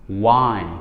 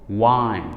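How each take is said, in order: No difference in how they are said.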